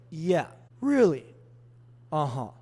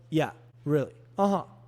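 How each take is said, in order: First: The responses are spoken at a slow pace. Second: The responses are spoken at a fast pace. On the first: It pushes a fast talker to slow down. "that's going to make them slow down because they're going to mirror my speed" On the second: It pushes a slow talker to speed up.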